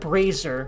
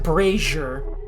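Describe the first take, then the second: First: The middle consonant is a plain z sound. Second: The middle consonant is a zh sound. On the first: "I would pronounce that brazier" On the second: "but she said brazier"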